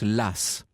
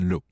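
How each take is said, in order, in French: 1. Le nom se termine par un son S. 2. Le nom se termine par un son voyelle. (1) "la tradition veut qu'on prononce Lass" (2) "on l'appellera comme il s'appelait"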